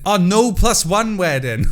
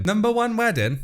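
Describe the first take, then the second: First: NO stressed, slow and louder; slow correction. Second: Rising, puzzled double-take; puzzled reread. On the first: Correcting his misread of the post, slow and emphatic. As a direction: land the correction on "no plus one". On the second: Reading aloud to viewers, puzzled at the odd phrase. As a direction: squint at the words in disbelief. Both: Real, not acted.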